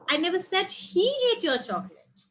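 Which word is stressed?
he. The word "he" carries the stress. Someone else ate it. "Someone else ate it"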